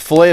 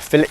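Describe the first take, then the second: First: It is said with an American accent. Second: It is said with a British accent.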